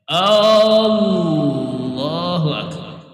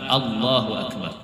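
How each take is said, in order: First: The opening 'A' of Akbar is drawn out long. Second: No vowel is drawn out; all are short. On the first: The speaker calls it wrong. "Ada juga hamzahnya panjang" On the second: The speaker calls it right. "ini bujur-bujur"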